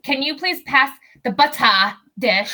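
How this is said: A strong accent is used, every word crisply enunciated. "this is like so enunciated"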